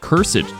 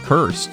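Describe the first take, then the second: First: The word is pronounced in an old-fashioned way. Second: The word is pronounced in the ordinary modern way. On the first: "You even said cursed, ... that's old-timey cursed" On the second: "not cursed"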